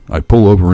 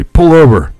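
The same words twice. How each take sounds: First: Said in the usual way. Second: Loud, high command; barked order. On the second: A narrator's reading. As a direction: order it sharply like a robber. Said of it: "tells me".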